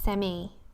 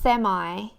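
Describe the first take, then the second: First: Said the way the speaker normally pronounces it. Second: Said the way the audience pronounces it. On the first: This is how the speaker's own community says the word. "I say semi" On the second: This is how the listeners say the word. "you say semi"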